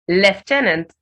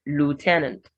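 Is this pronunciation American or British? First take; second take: British; American. First: It is said with a British pronunciation. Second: It is said with an American pronunciation. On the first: "in British English" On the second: "Americans will go more of"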